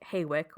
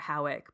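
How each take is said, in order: First: Two syllables, starting with an 'ay' vowel. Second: Two syllables, starting with an 'ow' vowel. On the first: "it looks like Haywick" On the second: "or Howick"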